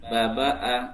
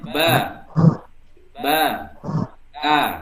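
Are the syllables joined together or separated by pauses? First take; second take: joined; separated. First: The syllables run together without stopping. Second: Each syllable is followed by a short stop. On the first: It is read as a whole word. "kalau per kata kan baba a" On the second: It is read one letter at a time. "bacanya putus, saya contohkan bacanya"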